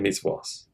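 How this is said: The word ends with an s sound. "they say misvos"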